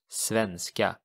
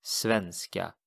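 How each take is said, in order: First: Svenska with a nasal e, SVEN-ska; Swedish word. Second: Svenska repeated slowly for the learner; Swedish word. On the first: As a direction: say svenska, stress on the first syllable. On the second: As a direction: Svenska modelled a second time. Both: Shown as a demonstration. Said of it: "And Swedish is, of course".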